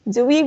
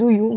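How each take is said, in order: First: The name is said the Korean way. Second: The name is said the English way. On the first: "the Korean name is actually Zui" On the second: "the English name is Zuyu"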